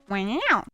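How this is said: It is said in a high-pitched, meow-like voice. It is the later evolved version of the imitation. "In a high-pitched voice that happens to just sound exactly like a meow"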